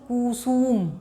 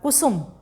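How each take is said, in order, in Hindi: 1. "ु" की मात्राएँ लंबी खींची जाती हैं। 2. "ु" की मात्राएँ छोटी और जल्दी बोली जाती हैं। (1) "अगर हम इस प्रकार से लिखेंगे तो" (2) "इसमें जल्दी से उच्चारण हो गया है"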